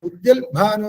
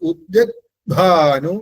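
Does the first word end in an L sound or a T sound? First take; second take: L sound; T sound. First: The first word ends in an l sound. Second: The first word ends in a t sound. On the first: The speaker calls it wrong. "ഉദ്യൽ Bhanu എന്ന് പറയാറില്ല" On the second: The speaker calls it right. "ഉദ്യത് എന്നേ വരുള്ളൂ"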